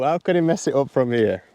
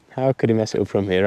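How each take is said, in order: First: Mock commentator voice; golf commentator. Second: Said in the usual way. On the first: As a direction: narrate yourself like TV golf coverage. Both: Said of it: "it's a case of sort of how".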